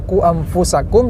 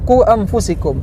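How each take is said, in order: First: The vowel before the ending is 'a'. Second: The vowel before the ending is 'i'. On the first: This is how the verse should be read. The speaker calls it right. "yang seharusnya dibaca" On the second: This is the slip of the tongue that was made. The speaker calls it wrong.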